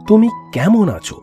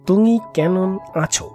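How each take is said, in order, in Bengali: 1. m ধ্বনিগুলো ঠোঁট দিয়ে বলা হয়। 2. m ধ্বনিগুলো জিভের পেছনের ধ্বনি দিয়ে বদলে যায়। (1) "যেমন তুমি কেমন আছো" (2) "প ফ ব ভ ময়ের জায়গায় ক খ গ ঘ উ"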